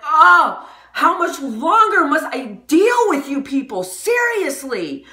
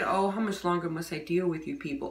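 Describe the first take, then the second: First: It is said angrily, with exclamation. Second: It is said calmly, without anger.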